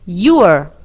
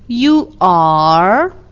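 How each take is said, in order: First: The verb is shortened and joined to the pronoun. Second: The verb is said as a separate full word. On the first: "Nella forma contratta, ... scompare la vocale iniziale del verbo" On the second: "La forma intera"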